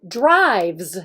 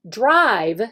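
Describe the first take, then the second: First: Drives with the final S stretched and stressed; teacher modelling the S ending of drives. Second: Said in the usual way. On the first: Shown as a demonstration. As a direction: lean on the S at the end of drives. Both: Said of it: "emphasizing the S on the drive".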